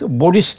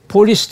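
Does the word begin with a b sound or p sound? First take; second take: b sound; p sound. First: The word begins with a b sound. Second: The word begins with a p sound. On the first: "bolis der" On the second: "Polis diyemez"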